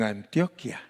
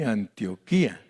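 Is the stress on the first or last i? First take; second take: first; last. First: The stress is on the first i. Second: The stress is on the last i.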